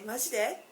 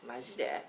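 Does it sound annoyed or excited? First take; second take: excited; annoyed. First: It sounds excited and pleased. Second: It sounds annoyed and exasperated. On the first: The speaker reacts to good news. "sometimes when you hear a good news, you say, seriously?" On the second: The speaker reacts to something ridiculous or annoying. "something that annoys you, you can say"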